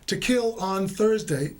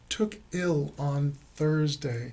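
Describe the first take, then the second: First: The phrase carries only two stresses. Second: The phrase carries three separate stresses. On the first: The speaker calls it wrong. "it sounds like to kill" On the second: The speaker calls it right. "you have to put three stresses on took ill on Thursday"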